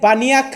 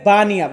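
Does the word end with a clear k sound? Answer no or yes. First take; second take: yes; no. First: The word ends with a clearly pronounced k sound. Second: The word ends without a pronounced k sound. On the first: The speaker calls it wrong. "এখানে কিন্তু বানিয়াক বললে হবে না" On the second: The speaker calls it right. "এটা হবে বানিয়া।"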